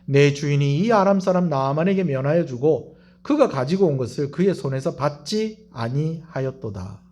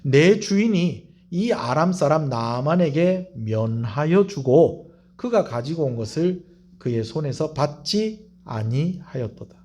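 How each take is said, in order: First: It is read quickly. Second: It is read slowly.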